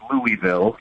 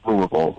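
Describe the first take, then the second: First: The name is said with all syllables. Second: The name is shortened with syllables dropped. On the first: The speaker is not from the city. The speaker calls it wrong. "for everyone else listening, I guess it's Louisville" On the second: The speaker is from the city. The speaker calls it right. "for people that live here, it's it's Louisville"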